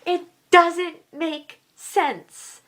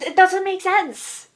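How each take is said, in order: First: Slow, with pauses between words; word-by-word emphasis. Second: Higher-pitched burst of frustration; exasperated. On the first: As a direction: spell out the frustration one word at a time. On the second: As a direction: blurt it out in one frustrated run. Exasperated repeat of same words. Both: Real, not acted.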